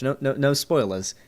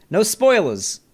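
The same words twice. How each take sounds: First: Said in the usual way. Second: Attempted New York accent, pitched up and punchy. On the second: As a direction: take a swing at a New York accent and miss a bit. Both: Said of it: "I try to do a New York accent".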